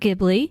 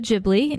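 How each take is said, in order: First: The word begins with a hard G sound. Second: The word begins with a soft G sound. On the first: The speaker calls it wrong. "not the hard G" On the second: The speaker calls it right. "with the soft G"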